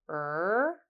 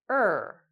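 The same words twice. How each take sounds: First: The pitch goes up across the vowel. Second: The pitch goes down across the vowel. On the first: "rising and falling intonations... goes up or down like this" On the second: "rising and falling intonations... goes up or down like this"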